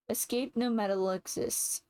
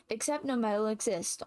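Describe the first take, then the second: First: "Escape no metal exists" with "Escape" misread for "Except"; the slip "Escape" where "Except" belongs; misread line. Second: "Except no metal exists" with "Except" said correctly, a bit faster; the fix, "Except" clearly spoken; corrected line. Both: Real, not acted.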